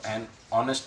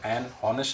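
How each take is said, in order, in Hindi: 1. 'honest' में शुरू का h साइलेंट है। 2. 'honest' में शुरू का h बोला जाता है। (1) "हेच साइलेंट होता है" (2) "एन हॉनेस्ट नहीं बोलेंगे हम इसको"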